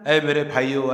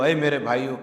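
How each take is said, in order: First: Tender address. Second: Loving address. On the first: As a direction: say اے میرے بھائیو with deep sympathy. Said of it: "بہت ہمدردی سے، بڑی محبت سے". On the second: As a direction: plead اے میرے بھائیو with love, tune lifting at the end. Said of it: "بڑی محبت سے". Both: Shown as a demonstration.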